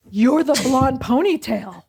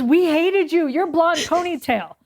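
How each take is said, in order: First: Slow, drawn-out realization; stunned recognition. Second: Higher, teasing accusation; half-joking blame from a rival; mock accusation. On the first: Retold or imitated. Friend realizing her old rival, slow amazed recognition. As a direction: spell it out slowly, amazed. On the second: Old rival confessing the grudge, higher playful accusation.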